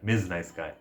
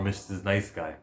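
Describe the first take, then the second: First: The first word is pronounced 'miz' with one syllable. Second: The first word is pronounced 'missus' with two syllables. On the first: The speaker calls it right. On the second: The speaker calls it wrong.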